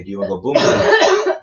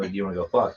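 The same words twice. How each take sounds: First: Louder mock Thai-English "boom boom"; imitating Thai bar girl. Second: Said in the usual way. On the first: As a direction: punch out "boom boom" like the bar girls say it. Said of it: "They say". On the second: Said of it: "they don't say".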